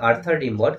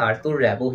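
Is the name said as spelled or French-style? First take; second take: as spelled; French-style. First: Every spelled letter is sounded, including the final consonant. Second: The final consonant is silent; it sounds French. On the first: The speaker calls it wrong. "আমরা লিখছি আর্থার রিমবর্ডে লেখার ধরন" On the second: The speaker calls it right. "Actually তার নামটা বলছি"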